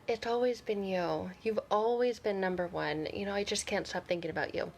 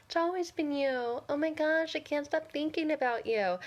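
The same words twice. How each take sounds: First: Said in the usual way. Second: High, whiny mocking voice; mock the ex in an annoyingly high singsong. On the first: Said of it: "the first one is". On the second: Coach mocking a toxic ex's sweet talk, annoying voice. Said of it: "I have to do that annoying voice".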